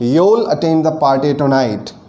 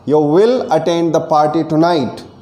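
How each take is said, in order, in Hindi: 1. 'You will' एक ही syllable में सिकुड़ जाता है। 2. 'You will' दो पूरे शब्दों की तरह बोला जाता है। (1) "उसके लिए आप कहेंगे" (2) "यू विल का कॉन्ट्रैक्शन हो जाएगा यूल"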